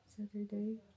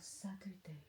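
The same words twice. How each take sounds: First: Saturday? rising like a real question, a bit higher. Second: Said in the usual way. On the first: Real, not acted. Double-checking what day tomorrow is, questioning rise.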